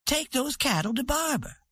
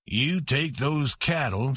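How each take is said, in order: First: Higher, proud woman giving an order; commanding queen. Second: Stubborn husband. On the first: Santa telling Bud where the cattle go, commanding. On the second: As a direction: press each word like a man holding his ground. Webb orders the cowboy. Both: A narrator's reading.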